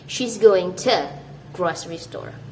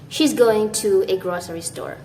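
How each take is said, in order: First: The word to is reduced to a quick t. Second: The word to is said in full, like too. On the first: The speaker calls it right. "you want to sound" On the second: The speaker calls it wrong. "you don't want to say"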